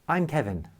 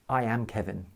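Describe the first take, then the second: First: I am is contracted into one syllable. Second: I and am are said as separate words. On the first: The speaker calls it right. "Notice I used the contraction I'm" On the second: The speaker calls it wrong. "This sounds much more natural than I am Kevin"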